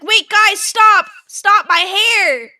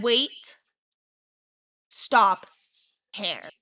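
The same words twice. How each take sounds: First: High, loud yell, slowing on the last words; panicked yell. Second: Calm, slow imitation. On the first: Retold or imitated. Hair caught in the paddle wheel, yelling at friends to stop. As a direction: shout for them to stop the wheel. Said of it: "I thought that I, like, was yelling". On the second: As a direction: mimic how calmly it actually came out. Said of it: "you said it very calmly".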